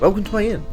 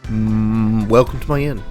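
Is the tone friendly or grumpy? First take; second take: friendly; grumpy. First: It sounds warm and friendly. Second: It sounds grumpy and reluctant.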